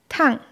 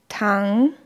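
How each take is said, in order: First: The pitch drops sharply from high. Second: The pitch dips low, then rises again. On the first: It means hot. "Beim vierten Ton fällt die Stimme abrupt von einem hohen Niveau ab" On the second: It means to lie down. "Dritter Ton. ... fallend steigender Ton"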